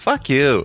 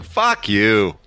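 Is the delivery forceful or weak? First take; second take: weak; forceful. First: It is said softly, with little force. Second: It is said hard, with strong force. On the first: The speaker calls it wrong. "You did it a little limp-wristed. You went" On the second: The speaker calls it right. "It's more like"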